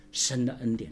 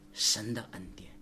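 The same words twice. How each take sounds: First: Said in the usual way. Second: Hushed, breathy whisper of the phrase; 神的恩典 whispered, then said aloud. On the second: Acted. Pastor repeats phrase softly.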